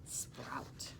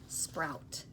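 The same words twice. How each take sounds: First: Sprout whispered very softly, no voice; whispered word. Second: Said in the usual way. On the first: Shown as a demonstration. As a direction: breathe the word Sprout as a secret. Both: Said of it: "That means they just start to grow".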